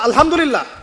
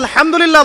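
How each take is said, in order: First: The h is a soft, light breath sound. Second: The h is a harsh sound from mid-throat. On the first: All condemnation belongs to God. The speaker calls it wrong. "এখানে হা হলো হাওয়াজ, মানে ছোট হা।" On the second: All praise belongs to God. The speaker calls it right. "অর্থ হচ্ছে সমস্ত প্রশংসা আল্লাহর জন্য"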